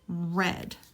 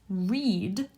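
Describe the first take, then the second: First: The vowel is a short E sound. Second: The vowel is a long E sound. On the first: It is the past tense. "Past tense is red, kind of like the color" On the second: It is the present tense. "Present tense is read, long E"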